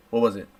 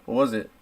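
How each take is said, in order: Both takes have the same delivery.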